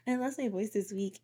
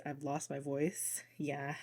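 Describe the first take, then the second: First: Said in the usual way. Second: Quiet, slow, strained hoarse voice. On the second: Real, not acted. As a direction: croak it out like a lost voice. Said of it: "Mercury has had my freaking vocal cords twisted up".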